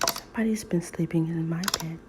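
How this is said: It is said in a quiet, gentle voice.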